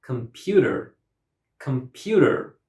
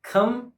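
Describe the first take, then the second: First: "Computer" with PU louder than the other syllables; stress on second syllable. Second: "Computer" in three separate beats, com, pu, ter; syllable by syllable. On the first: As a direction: punch the PU in "Computer". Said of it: "second syllable is pronounced louder". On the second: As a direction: break "Computer" apart with long pauses. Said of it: "The word has three syllables". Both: Shown as a demonstration.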